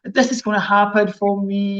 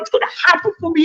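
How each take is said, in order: First: It is said flat, with the voice low. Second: It is said excitedly, with lots of energy.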